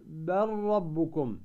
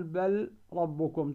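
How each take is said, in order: First: بل ربكم very slowly with the ل merged into a doubled rr; slow tajweed demo of the merged ل; correct assimilation. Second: بل ربكم slowly with a clear separate ل before the ر; wrong pronunciation. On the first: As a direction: say بل ربكم as bar-rabbukum, drawn out. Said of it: "تقول". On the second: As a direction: say بل ربكم keeping the ل distinct, as the mistake. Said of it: "ولا تقول". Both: Shown as a demonstration.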